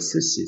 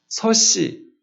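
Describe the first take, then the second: First: The first vowel sounds like 'eu'. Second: The first vowel sounds like 'eo'. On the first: This is the standard form of the word. The speaker calls it right. "서씨가 아니라 스씨죠" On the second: This is how a Gyeongsang speaker says it. The speaker calls it wrong. "경상도 사람들은 스씨를"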